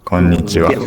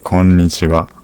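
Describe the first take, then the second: First: The first n sound is pressed and held. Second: The same.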